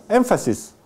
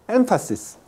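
Both takes have the same delivery.

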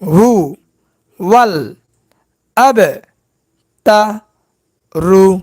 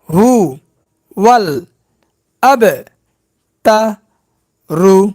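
The two takes are said the same way.

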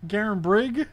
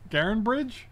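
First: The name ends with a hard 'brig' sound. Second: The name ends with a soft 'bridge' sound. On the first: The speaker calls it right. "Yes, it's not Bridge" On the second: The speaker calls it wrong. "It's not Castle Garenbridge"

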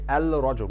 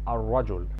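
First: The L sound is heard before rajul. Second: The L sound is dropped before rajul. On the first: The speaker calls it wrong. "We did not say al-rajul" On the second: The speaker calls it right. "We've skipped pronouncing the lam or the L sound"

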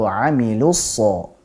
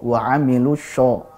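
First: The last word starts with a thick, sharp s. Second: The last word starts with a hushing sh sound. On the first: The speaker calls it right. "Tapi yang betul adalah wa amilu so" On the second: The speaker calls it wrong. "Jadi bukan sho, wa amilu sho, nah, salah"

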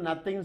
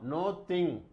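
First: The first vowel sounds like 'uh'. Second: The first vowel sounds like 'oh'. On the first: The speaker calls it wrong. "மறந்தும் நத்திங் சொல்லவே சொல்லாதீங்க" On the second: The speaker calls it right. "இதை என்ன பண்ணும், நோ திங்"

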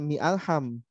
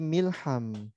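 First: A clear glottal break separates mi from alham. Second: Mi runs straight into lham with no break. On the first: The speaker calls it wrong. "bukan mi alham" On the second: The speaker calls it right. "kalau mau disambung ... tapi milham"

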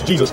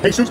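First: The name is pronounced the English way. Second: The name is pronounced in a non-English way.

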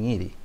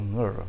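First: A clear i vowel follows the ng. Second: A central vowel follows the ng. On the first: This is how it is commonly said locally. "generalmente acá dicen ngiri" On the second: This is the form with the sixth vowel. "Entonces, ngr"

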